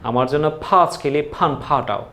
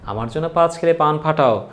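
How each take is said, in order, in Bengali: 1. এটা জোরালো আকাঙ্ক্ষিত ইংরেজি-ধাঁচের ব্যঞ্জনবর্ণ দিয়ে বলা হয়। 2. এটা সাধারণ বাংলা ব্যঞ্জনবর্ণ দিয়ে বলা হয়।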